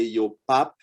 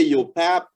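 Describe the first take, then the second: First: Yo PAP with an open ah in pap; Creole yo pap. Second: Yo PAP with an English short a as in cat; learner's yo pap. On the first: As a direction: demonstrate yo pap, A sounding ah as in déjà. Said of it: "but in Creole we say". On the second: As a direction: mimic the learner's flat-vowel pap in yo pap. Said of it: "you say yo pap". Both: Shown as a demonstration.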